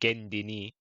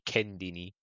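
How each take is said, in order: First: The word begins with a G sound. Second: The word begins with a K sound. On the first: This is how Cypriots say it. "I said Gendini" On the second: This is how people from Turkey say it. "Turkish people say Kendini"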